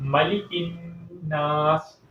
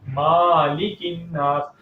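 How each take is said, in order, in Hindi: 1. पहला स्वर छोटा रखा जाता है। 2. पहला स्वर लंबा खींचा जाता है। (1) "लंबाई के साथ नहीं, बगैर लंबाई के।" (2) "मीम को लंबा कर दिया जाता है"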